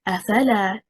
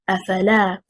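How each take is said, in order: First: The stress is on the second syllable. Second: The stress is on the third syllable. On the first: It becomes two words. The speaker calls it wrong. "If we stress on the second حركة حركة الفاء and we say أفلا" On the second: It is made of three separate words. The speaker calls it right. "The correct performance is أفلا, stressing on حركة اللام"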